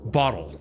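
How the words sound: The t is a soft, quick flap. "but bottle. Say it like you would in American English"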